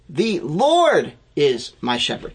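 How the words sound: The word "Lord" is stressed.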